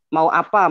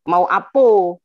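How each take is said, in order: First: The last word ends with an a vowel. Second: The last word ends with an o vowel. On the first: This is how Malay people normally say it. "orang Melayu normalnya mengatakan" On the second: This is how Padang people say it. "orang Padang mengatakan"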